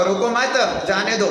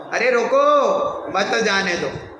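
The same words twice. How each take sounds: First: "रोको मत" as one unit, pause, then "जाने दो"; pause after मत. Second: "रोको" called out rising, long pause, then "मत जाने दो"; pause after रोको. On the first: Teacher showing how a comma shifts meaning, pause after मत. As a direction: break the phrase after मत, before जाने दो. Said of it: "रोको मत के बाद कॉमा लगाओ". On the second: Teacher showing the opposite meaning, pause after a raised रोको. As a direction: punch रोको, stop, then run मत into जाने दो. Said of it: "रोको के बाद कॉमा लगाओ". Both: Shown as a demonstration.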